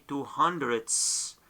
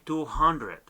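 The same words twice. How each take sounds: First: Two hundredths ending in a hissed s, as hundreds; added plural S. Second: Two hundred ending on d, no s; no plural S. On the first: Teacher showing what we do not say, two hundredths with final s. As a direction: put an s on the end of two hundredths. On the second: Teacher showing what we just say, two hundred without s. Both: Shown as a demonstration. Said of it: "do not add the S".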